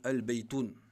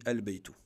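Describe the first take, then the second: First: The word ends with an added n sound. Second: The word ends on a vowel, without n. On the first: The speaker calls it wrong. "Mais ça c'est faux" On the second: The speaker calls it right. "le tanwin saute"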